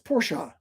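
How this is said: It is said in a German way. The speaker calls it right. "Throw the sh in there. The Germans do"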